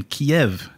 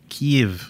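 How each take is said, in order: First: Said in the usual way. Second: Kiev run into one syllable, "keev"; local pronunciation. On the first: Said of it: "I don't know how to pr". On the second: Shown as a demonstration. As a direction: say Kiev as "keev", no second vowel. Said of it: "pronounce it like they do".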